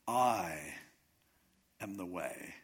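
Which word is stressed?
I. The stress falls on the word I. It is this person and no one else. "just emphasize the first word"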